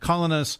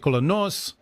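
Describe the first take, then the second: First: The name has an English pronunciation. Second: The name has a Greek pronunciation.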